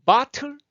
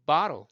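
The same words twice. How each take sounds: First: Bottle high and loud with a hard T; crisp aspirated "bah-tul" for bottle; full T sound. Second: Bottle as "bah-ro", falling; American flap in bottle; easy flapped T. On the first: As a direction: pop the T in bottle. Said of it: "복식어부를 하면서 말하기가 편하다고요". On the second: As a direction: let the T of bottle relax into an R-like tap. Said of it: "말하기가 편하다고요". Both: Shown as a demonstration.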